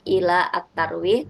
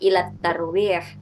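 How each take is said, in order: First: An article syllable is pronounced before tarwih. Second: Ila runs straight into tarwih without an article. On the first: The speaker calls it wrong. "bukan ila at-tarwih" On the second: The speaker calls it right. "tapi langsung saja ila tarwih"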